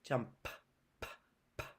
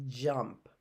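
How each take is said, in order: First: Quiet "Jump", then separate puffs of p; "Jump" followed by whispery p, p; isolated ending sound. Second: "Jump" with a soft, held j at the start; low, quiet "Jump" for its opening sound; stress on first sound. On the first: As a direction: pop the final p of "Jump" on its own. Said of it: "The ending sound". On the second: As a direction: lean gently into the j of "Jump". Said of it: "think about what that starts with". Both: Shown as a demonstration.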